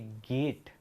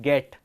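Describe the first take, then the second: First: The vowel is a long 'ay' glide. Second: The vowel is short and clipped. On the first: This is how it should be said. The speaker calls it right. "जबकि उनको बोलना चाहिए गेट" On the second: This is how the village children say it. The speaker calls it wrong. "वो ये word का उच्चारण करते हैं गेट"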